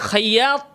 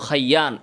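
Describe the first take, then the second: First: The name ends with a T sound. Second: The name ends with an N sound. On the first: The speaker calls it right. "শেষে হচ্ছে ত" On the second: The speaker calls it wrong. "তয়ের জায়গায় সে নুন বলল খাইয়ান"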